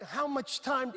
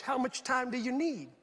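First: Said in the usual way. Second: "How much time do you need" drawn out slowly; slow, weighted "How much time do you need", falling at the end; changed inflection. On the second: Retold or imitated. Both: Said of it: "the inflection changed".

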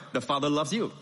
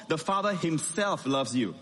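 First: Said in the usual way. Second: The Father himself loves you, leaning on himself; stress on himself. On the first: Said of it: "it still sounds okay". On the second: Shown as a demonstration. Preacher showing the congregation the warmth of himself. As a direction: lean warmly into the word himself. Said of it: "it becomes so warm".

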